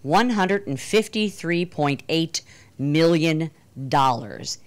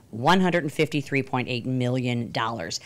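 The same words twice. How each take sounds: First: Each number laid out slowly and weighted; slow dramatic emphasis. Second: Said in the usual way. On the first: Real, not acted. Congresswoman revealing Backpage's revenue to the audience, slow emphatic delivery. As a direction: land the figure slowly for shock value. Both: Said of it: "are you ready for this?".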